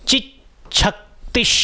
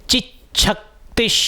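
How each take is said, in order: The two takes are said the same way.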